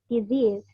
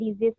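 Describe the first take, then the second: First: The vowel is said long. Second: The vowel is said short. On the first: The speaker calls it right. "dia harus panjang ya karena dia em, long vowel" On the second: The speaker calls it wrong. "bukan cuman disease aja"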